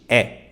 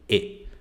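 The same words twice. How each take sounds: First: The vowel is an open E sound. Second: The vowel is a closed E sound. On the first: The speaker calls it wrong. "Mesma coisa com o E. Não existe E no japonês" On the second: The speaker calls it right. "É sempre E"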